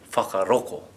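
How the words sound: The 'ng' sound is replaced by a 'k'. "And if we were from Kaitahu or Ngaitahu?"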